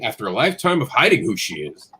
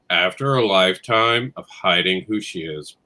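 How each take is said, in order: First: It is read with lively, varied inflection. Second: It is read flatly with little inflection. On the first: The reader seems excited about the book. The speaker calls it right. "I read it the way I've practiced and written" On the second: The reader does not seem to care about the book. The speaker calls it wrong. "This is how they read it"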